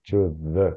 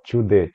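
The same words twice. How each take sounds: First: 'The' starts with a slower th sound. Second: 'The' starts with a quick d sound. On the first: The speaker calls it right. "com outro som, você perde um pouco a velocidade" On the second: The speaker calls it wrong. "To the fica muito fácil"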